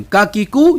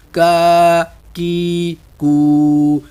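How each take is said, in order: First: کا کی کو said at once, short; quick syllables. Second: کا کی کو stretched slowly; drawn-out drill. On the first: Teacher shows students the fast کا کی کو. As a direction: snap out کا کی کو without stretching. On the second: Teacher drilling ک syllables slowly. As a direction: drag out each کا کی کو. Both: Shown as a demonstration. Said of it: "فوراً پڑھیں گے ہم".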